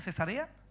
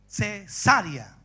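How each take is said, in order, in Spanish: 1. La sílaba tónica cae después de la sílaba 'sa'. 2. La sílaba tónica cae en la sílaba 'sa'. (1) "¿así se pronuncia cesarea?" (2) "En la A"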